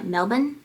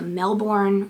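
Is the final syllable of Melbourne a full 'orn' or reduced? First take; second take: reduced; full. First: The last syllable is reduced, without 'orn'. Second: The last syllable is said as a full 'orn'.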